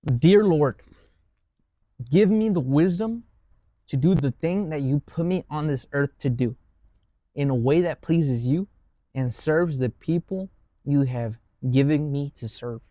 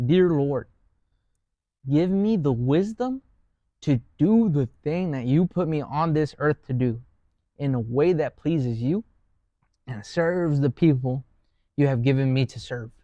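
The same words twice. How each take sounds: First: Slow, reverent prayer. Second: Prayer. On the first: Reading a found prayer to close the talk, slow and reverent. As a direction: pray it out slowly and earnestly. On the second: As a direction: say the prayer once more, unhurried. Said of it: "And I'll say that again". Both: Shown as a demonstration.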